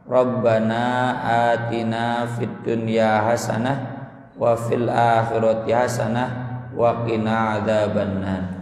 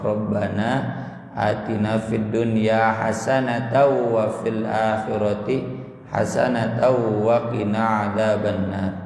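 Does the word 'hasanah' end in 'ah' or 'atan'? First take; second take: ah; atan. First: Hasanah ends in 'ah', the stopping form. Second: Hasanah ends in 'atan', the connected form. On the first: The speaker calls it wrong. "jangan dihasanah-hasanah" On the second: The speaker calls it right. "Dibacanya di wasol"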